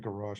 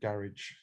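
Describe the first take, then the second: First: It is said with an American accent. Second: It is said with an English accent.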